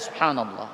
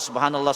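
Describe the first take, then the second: First: It is said slowly, with a pause after. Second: It is said fast, running into the next.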